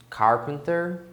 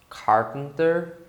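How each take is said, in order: Both takes have the same delivery.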